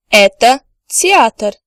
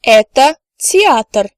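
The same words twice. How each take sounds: First: "Это театр" said slowly again; slow second "Это театр"; slow repeat. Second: "Это театр" said slowly and clearly; slow careful "Это театр"; slow model answer. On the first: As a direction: repeat it for learners to copy. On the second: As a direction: spell out the sentence for learners. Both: Shown as a demonstration. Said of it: "The answer could be".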